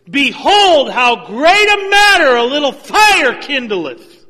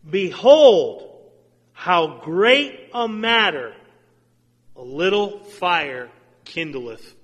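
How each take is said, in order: First: It is read with strong exclamatory force. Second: It is read in a plain, calm way.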